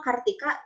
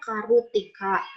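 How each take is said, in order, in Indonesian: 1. r dan t diucapkan bersamaan. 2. Sebuah vokal disisipkan di antara r dan t. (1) "nama Kartika" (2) "di Jepang mah kalau nama Kartika dibacanya Karutika"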